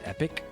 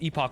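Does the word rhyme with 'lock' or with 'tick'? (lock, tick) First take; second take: tick; lock. First: The second syllable sounds like 'ick'. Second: The second syllable sounds like 'ock'. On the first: "You think Epoch is pronounced epic?" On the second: "I've always heard it pronounced epoch"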